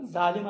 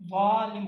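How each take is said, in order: First: Said in the usual way. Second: "ظالم" with a heavy, emphatic dh in place of z; thick Arabic za. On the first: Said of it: "زا جیسا کرتے ہیں". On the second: Shown as a demonstration. Teacher shows the Arabic letter, thick emphatic za. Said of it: "اسی کو تھوڑا موٹا تلفظ کرو".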